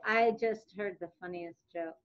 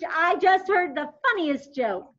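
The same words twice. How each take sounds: First: The voice sounds flat and gloomy. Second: The voice sounds amused and lively. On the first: The tone does not match the funny mood. The speaker calls it wrong. "I'm not going to say" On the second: The tone matches the funny mood. The speaker calls it right. "Or a funny"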